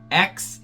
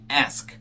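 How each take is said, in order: First: The k sound comes before the s. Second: The s sound comes before the k. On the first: "na cultura afro-americana eles tendem a, a dizer X" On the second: This is the standard form. "ao invés de ask"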